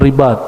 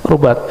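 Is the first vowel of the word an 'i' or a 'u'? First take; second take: i; u. First: The first vowel sounds like 'i'. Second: The first vowel sounds like 'u'. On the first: This is the general name for the place. "lama-lama disebut ribat" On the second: This is the local dialect form of the name. "dalam lahjah dialek orang Mekah dan Yaman disebut rubat"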